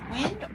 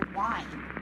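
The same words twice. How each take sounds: First: The vowel sounds like the one in 'win'. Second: The vowel sounds like the one in 'wine'. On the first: It means moving air. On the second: It means turning something, like winding a camera.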